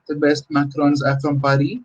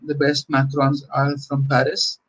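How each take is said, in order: First: Paris said the French way, Pa-ri with no final s; a hint of French on Paris, said Pa-ri; French pronunciation. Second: Said in the usual way. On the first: Shown as a demonstration. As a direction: give Paris a light French Pa-ri, dropping the s. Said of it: "you want to use the French pronunciation and say". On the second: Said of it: "and you want to use the French pronunciation".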